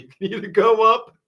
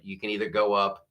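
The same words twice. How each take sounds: First: Laughing. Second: Said in the usual way. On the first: Real, not acted. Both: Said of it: "I'm gonna ask you guys".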